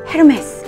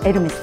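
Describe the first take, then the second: First: It starts with an h sound. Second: It starts with a vowel sound. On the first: The speaker calls it wrong. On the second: The speaker calls it right.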